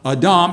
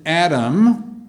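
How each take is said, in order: First: The name is said the Hebrew way. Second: The name is said the usual English way. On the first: "The Hebrew word, I think, would be pronounced more like Adam" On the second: "We usually pronounce it Adam"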